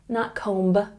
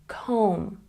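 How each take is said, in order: First: The final B is pronounced. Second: The final B is silent. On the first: The speaker calls it wrong. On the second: The speaker calls it right.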